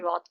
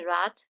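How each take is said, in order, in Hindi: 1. यह ब्रिटिश लहजे में बोला गया है। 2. यह अमेरिकन लहजे में बोला गया है। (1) "जो ब्रिट इंग्लिश है उसमें रॉथ कहा जाता है" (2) "जो अमेरिकन इंग्लिश है उसमें रात"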